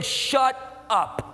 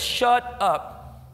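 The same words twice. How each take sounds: First: A hint of God cutting him off, blunt; the Lord's voice. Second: Lightly voiced God silencing him, blunt; a touch of the Lord shutting down his doubts; the Lord's voice. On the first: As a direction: voice the Lord telling him to stop, lightly. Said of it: "And the Lord saying". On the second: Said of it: "he says".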